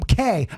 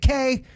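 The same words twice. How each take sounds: First: The name is said in a blunt, dismissive tone. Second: The name is said in a light, joking tone. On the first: The speaker is ignoring her authority. "There's there's a difference in the approach" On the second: It is friendly teasing between them. "we would laugh about it"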